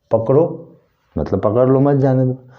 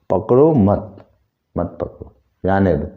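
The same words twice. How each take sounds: First: पकड़ो set apart, मत joined to जाने दो; higher-pitched पकड़ो standing alone as a command; pause after पकड़ो. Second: पकड़ो मत as one phrase, जाने दो set apart; मत bound to पकड़ो, comma pause after it. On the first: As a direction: break after पकड़ो, then run मत जाने दो together. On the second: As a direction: join मत onto पकड़ो, then break before जाने दो. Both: Shown as a demonstration. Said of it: "ये जगह इसका चेंज हो गया".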